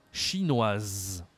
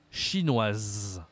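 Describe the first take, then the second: No difference in how they are said.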